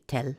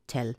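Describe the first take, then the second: First: The word is said quickly and clipped. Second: The word is said quickly and clipped.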